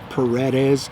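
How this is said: The name is said with an English pronunciation. The speaker calls it wrong. "In English, I guess some people will pronounce it as"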